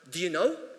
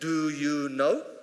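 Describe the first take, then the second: First: The words do you are reduced and weak. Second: The words do you are said in full. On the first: "weak forms, so saying things like" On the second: "instead of saying"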